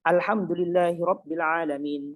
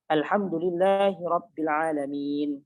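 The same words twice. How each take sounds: First: The final long vowel is kept short. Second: The final long vowel is held moderately long. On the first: "atau bahkan dia baca pendek" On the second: "dia baca panjang saja"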